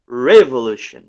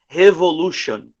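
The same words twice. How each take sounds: First: The R is a soft English-style sound. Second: The R is a throaty Portuguese-style sound. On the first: The speaker calls it right. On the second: The speaker calls it wrong.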